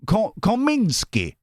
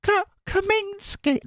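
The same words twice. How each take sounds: First: Slow "Kominsky" said higher, in a mock Russian accent; mock Russian name. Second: "Kominsky" said very high and slow, in a falsetto lady's voice; her voice. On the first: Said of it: "Russian voice". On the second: Pretend. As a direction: say "Kominsky" as she would, very high. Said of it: "now in her voice".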